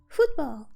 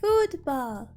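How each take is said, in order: First: The word is said at normal speed. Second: The word is said slowly and drawn out.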